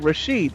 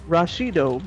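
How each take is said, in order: First: The name ends on a bare d sound. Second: The name ends with an added vowel after d.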